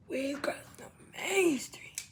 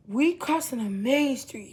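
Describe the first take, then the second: First: "We crossing the main street" whispered, softer and slow; tense whisper. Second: Said in the usual way. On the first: Retold or imitated. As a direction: hush "We crossing the main street" like sneaking across.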